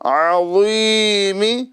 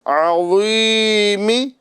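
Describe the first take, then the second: The two takes are said the same way.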